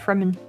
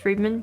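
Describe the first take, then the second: First: The first vowel sounds like 'eh'. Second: The first vowel sounds like 'ee'. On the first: This is the speaker's own habit. "I'm gonna say Fremen" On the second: This is the official pronunciation. "is supposed to be pronounced Freeman"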